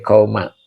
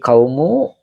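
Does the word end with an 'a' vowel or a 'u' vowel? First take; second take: a; u. First: The word ends with an 'a' vowel. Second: The word ends with a 'u' vowel. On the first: The speaker calls it wrong. "Tidak boleh kauma" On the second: The speaker calls it right. "dibacanya eh, donmah ya"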